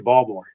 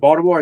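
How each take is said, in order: First: It is said in a soft local Baltimore accent. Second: It is said in a standard, general accent. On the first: "they'll say Baltimore" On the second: "instead of Baltimore"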